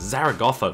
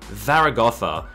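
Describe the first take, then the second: First: It begins with a 'z' sound. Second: It begins with a 'th' sound. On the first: The speaker calls it right. "I would go for that" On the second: The speaker calls it wrong. "doesn't sound very nice"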